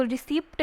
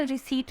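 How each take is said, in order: First: रिसीप्ट with the p sounded before the t; wrong pronunciation. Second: रिसीट with a silent p; correct pronunciation. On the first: Teacher showing students the reading to avoid, रिसीप्ट with audible p. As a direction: pronounce the silent p in रिसीप्ट. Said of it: "इसको रिसीप्ट नहीं पढ़ते हैं". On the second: Teacher showing students the correct reading, रिसीट with silent p. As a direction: say रिसीट ending in a plain t, no p. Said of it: "रिसीट पढ़ते हैं". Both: Shown as a demonstration.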